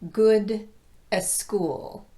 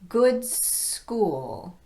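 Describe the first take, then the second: First: An extra vowel sound comes before the s. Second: Good runs straight into the s sound. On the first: The speaker calls it wrong. "not good a school" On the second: The speaker calls it right. "I'm going right from good into s"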